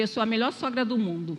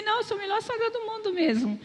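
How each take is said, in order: First: Said in the usual way. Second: Much higher, insisting with a playful grin; emphatic insistence. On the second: Retold or imitated. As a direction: say it again and mean it, pitched up high. Insists again after he laughed. (repetindo com ênfase, bem mais aguda e divertida)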